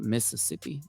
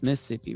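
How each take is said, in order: First: The second set of S sounds is pronounced. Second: The second set of S sounds is dropped. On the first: The speaker is not really from the state. The speaker calls it wrong. "Not Mississippi" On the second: The speaker is really from the state. The speaker calls it right. "if they don't include that second set, uh, set of S's. So it's Mississippi, right?"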